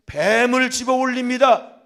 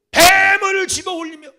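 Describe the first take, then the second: First: Slow, loud, weighty words; loud proclamation. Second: High, loud, slow cry; shouted proclamation. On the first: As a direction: proclaim each word slowly and loudly. (천천히 크게 선포하듯) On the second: (높고 크게 천천히 외치듯) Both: Acted. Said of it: "preaching proclamation".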